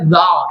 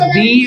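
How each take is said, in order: First: The word is said with an 'uh' vowel. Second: The word is said with an 'ee' vowel. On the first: The next word starts with a consonant sound. "যেহেতু এটা consonant sound, এখানে উচ্চারণটা হবে দা" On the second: The next word starts with a vowel sound. "যদি vowel sound দিয়ে শুরু হয় তাহলে এটা উচ্চারণ হবে দি"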